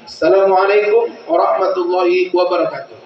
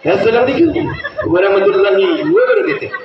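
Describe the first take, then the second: First: It is said in a preacher's manner. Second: It is said in a showy artist's manner.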